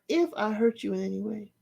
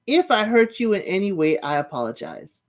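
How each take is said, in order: First: Soft, scornful echo of the apology; quietly mimicking a hollow apology; mocking repeat. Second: Said in the usual way. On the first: Shown as a demonstration. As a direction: repeat her words with quiet disdain. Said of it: "So I'm like". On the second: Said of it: "She's like, you know".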